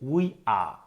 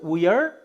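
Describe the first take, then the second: First: It is said in a British accent, r dropped. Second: It is said in an American accent, r pronounced. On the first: "ব্রিটিশরা বলছে we আ" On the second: "আমেরিকানরা বলছে we আর"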